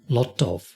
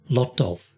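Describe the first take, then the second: No difference in how they are said.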